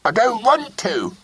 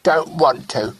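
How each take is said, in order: First: Put-on stamp out the refusal again like a cross boy; loud stubborn child; repeated loudly. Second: Put-on higher child's sulky refusal; a mild pout of a boy who won't kiss; sulky little boy. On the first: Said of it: "he repeated loudly".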